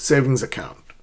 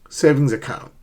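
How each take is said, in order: First: The two words are linked together smoothly. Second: The same.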